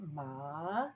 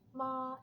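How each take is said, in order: First: The pitch falls and then rises again. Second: The pitch stays high and level. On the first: "that goes down and then it goes up" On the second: "this first flat tone"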